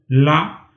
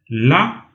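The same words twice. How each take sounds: First: The syllable is said on a mid level pitch. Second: The syllable is said on a high level pitch. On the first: "d'en moyen" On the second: "d'en haut"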